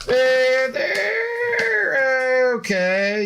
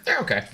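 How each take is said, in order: First: Drawn-out they're okay. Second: Said in the usual way. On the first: Shown as a demonstration. Streamer answering chat about the Seahawks, slow mock doubt. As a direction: drag out "they're okay" with a doubtful high lilt.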